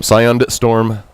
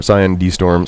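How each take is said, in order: First: Slowed, spelling out the D; each word slow and careful, Scion D Storm; slow correction. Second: Said in the usual way. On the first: Shown as a demonstration. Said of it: "I'm sorry". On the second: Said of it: "I know".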